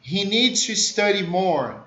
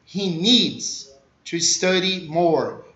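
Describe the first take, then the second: First: Said in the usual way. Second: Slow, with a pause after "needs"; deliberate, spaced-out model reading; slow chunked repeat. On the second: Shown as a demonstration. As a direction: break it into chunks for learners. Teacher repeats it broken into chunks.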